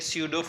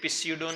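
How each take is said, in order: First: The initial p sound is silent. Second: The initial p sound is pronounced. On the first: The speaker calls it right. "pseudo में p silent होता है" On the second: The speaker calls it wrong. "ये pseudo नहीं है please"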